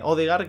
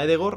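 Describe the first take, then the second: First: The name begins with an 'o' sound. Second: The name begins with an 'e' sound. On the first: The speaker calls it wrong. "este nombre ya se empezó pronunciando mal" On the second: The speaker calls it right. "que sería Edegor"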